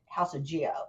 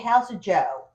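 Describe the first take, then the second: First: The name is said the American way. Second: The name is said the Italian way.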